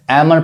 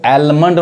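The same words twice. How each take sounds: First: "आमंड" with no L sound; silent L. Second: "आलमंड" with the L sounded; wrong pronunciation. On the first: Teacher correcting learners, "आमंड" with silent L. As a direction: say "आमंड", first vowel straight into M. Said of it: "एल silent है". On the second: Teacher showing the common mistake, "आलमंड" with sounded L. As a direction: say "आलमंड", pronouncing L before M. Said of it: "इसको आलमंड नहीं कहेंगे". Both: Shown as a demonstration.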